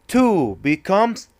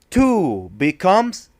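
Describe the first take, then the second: The two takes are said the same way.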